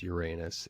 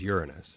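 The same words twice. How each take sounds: First: It is pronounced the American way. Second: It is pronounced the European way. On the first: "The American way of saying it is" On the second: "the European way of saying it is"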